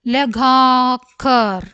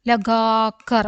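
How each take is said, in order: First: Slow, stretched middle vowel; syllable by syllable. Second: Said in the usual way. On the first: Shown as a demonstration. Teacher modelling a word for learners, syllable by syllable. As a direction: draw the word out in separate syllables.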